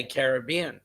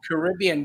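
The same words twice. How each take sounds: First: "Caribbean" as kar-ih-BEE-un; stress on third syllable. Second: "Caribbean" as kuh-RIB-ee-un; stress on second syllable. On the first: Shown as a demonstration. Co-host correcting host, "Caribbean" stressed kar-ih-BEE-un. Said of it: "when you should say Caribbean". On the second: Retold or imitated. Co-host quoting host's way, "Caribbean" stressed kuh-RIB-ee-un. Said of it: "you say Caribbean".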